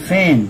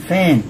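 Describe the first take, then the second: The two takes are said the same way.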